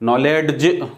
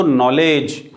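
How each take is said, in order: First: नॉलेज broken as "knowled-j", d pronounced; D wrongly sounded. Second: नॉलेज as "nol-ej", no d heard; silent D. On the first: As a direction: sound a separate d before the j in नॉलेज. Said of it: "नॉलेज नहीं होगा". (नॉलेज में डी का गलत उच्चारण) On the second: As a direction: drop the d in नॉलेज. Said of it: "डी और जी आया है". (नॉलेज में डी silent) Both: Shown as a demonstration.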